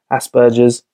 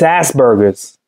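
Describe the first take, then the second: First: It is said in a British accent. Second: It is said in an American accent. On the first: "It sounds really serious when we talk about it" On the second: "when it's an American, I start laughing"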